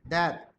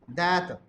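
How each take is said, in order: No difference in how they are said.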